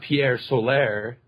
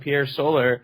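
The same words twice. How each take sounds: First: Soler is said like Solaire, stress on the end. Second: Soler is said like the word solar. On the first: The speaker calls it wrong. "mispronouncing Pierre Soler as uh, Pierre Soler" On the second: The speaker calls it right. "it's just you know, solars and solar system"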